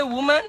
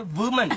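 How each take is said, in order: First: Said in the usual way. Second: "woman" said with a V, as "vuman"; Indian-accent "vuman" for "woman". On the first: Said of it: "We don't say woman". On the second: Shown as a demonstration. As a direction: start "woman" on a V sound, Indian style. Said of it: "we say woman".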